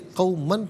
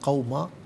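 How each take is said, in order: First: The word ends with an n sound. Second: The word ends with a long a vowel. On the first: The reading continues without stopping. "इसे क़ौमन पढ़ेंगे" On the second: The reader stops on this word. "वफ़ की सूरत में क़ौमा पढ़ा जाएगा"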